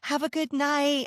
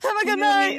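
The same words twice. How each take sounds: First: It is said in a calm, casual way. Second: It is said in an excited, eager way.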